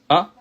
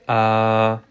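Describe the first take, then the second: First: The vowel is said short. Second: The vowel is drawn out long. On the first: "au lieu de dire A" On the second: "mais nous on va l'allonger"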